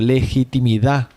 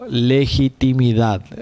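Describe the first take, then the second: First: The final D sound is dropped. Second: The final D sound is pronounced.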